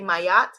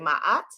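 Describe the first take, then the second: First: A y sound joins the two vowels. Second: A break separates the two vowels. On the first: This is the speaker's own pronunciation. "I say Mayat" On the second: This is how some other people say it. "some people say Ma'at"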